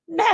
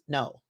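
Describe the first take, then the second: First: It is yelled loudly. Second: It is said at a normal, calm volume.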